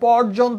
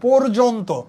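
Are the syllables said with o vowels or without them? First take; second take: without; with. First: The syllables are said without o vowels. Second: The syllables are said with o vowels. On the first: The speaker calls it wrong. "আমি পর্যন্ত বলি না" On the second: The speaker calls it right. "এই জন্য এখানে প ওকার জ ওকার, ন তো ওকার"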